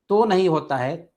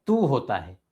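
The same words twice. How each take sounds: First: तो said with o as a mistake; wrong o vowel. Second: तू with a long ऊ; correct long u. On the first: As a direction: show the wrong तो. (गलत ओ) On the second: (सही ऊ) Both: Shown as a demonstration.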